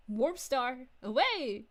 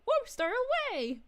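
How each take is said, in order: First: Said in the usual way. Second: Excited battle cry. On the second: Acted. Repeats Shamus's line, acted out.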